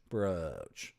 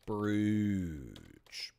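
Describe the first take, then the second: First: Brooch with long oh, like poach; rhymes with poach. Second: Brooch in Canadian, said broosh with oo; Canadian oo in brooch, ending sh. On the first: Matching brooch to poach, long oh vowel. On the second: Showing the Canadian way, brooch as broosh. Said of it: "Canadian pronunciation of". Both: Shown as a demonstration.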